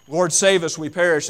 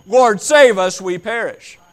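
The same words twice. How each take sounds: First: Louder, raised plea; pleading cry. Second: High, loud panicked yell; screaming plea. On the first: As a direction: call out for help. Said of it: "yelling and screaming". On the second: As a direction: scream it like you're drowning. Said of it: "someone is yelling and screaming". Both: Acted.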